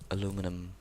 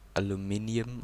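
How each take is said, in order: First: The word is said as aluminum. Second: The word is said as aluminium. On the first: The speaker calls it wrong. "which is the wrong pronunciation" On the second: The speaker calls it right. "aluminium, I should say"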